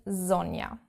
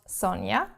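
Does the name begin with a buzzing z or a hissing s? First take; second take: buzzing z; hissing s. First: The name begins with a soft buzzing z. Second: The name begins with a sharp hissing s. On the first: The speaker calls it right. "in German, proper correct German" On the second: The speaker calls it wrong. "as I get called"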